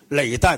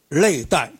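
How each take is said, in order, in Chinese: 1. 第一个音节以 L 音开头。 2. 第一个音节以 N 音开头。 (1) "应该读累是吧？" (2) "我这个普通话太广东话了"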